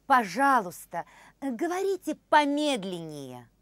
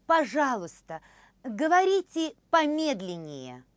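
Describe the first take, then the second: No difference in how they are said.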